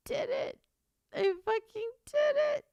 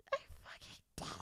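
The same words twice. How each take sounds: First: High, tight voice, overcome with joy; tearful disbelief. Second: Voiceless, much softer sob; crying with joy. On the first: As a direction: squeak it out on the edge of happy tears. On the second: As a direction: let the words collapse into happy crying. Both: Real, not acted. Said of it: "Why can't I stop crying?".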